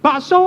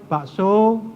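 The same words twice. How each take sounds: First: It is shouted loudly. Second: It is said weakly and softly.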